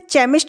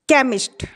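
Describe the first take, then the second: First: The word begins with a ch sound. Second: The word begins with a k sound. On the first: The speaker calls it wrong. "इसे चेमिस्ट नहीं पढ़ेंगे हम" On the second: The speaker calls it right. "इसका उच्चारण क्या होगा का होगा"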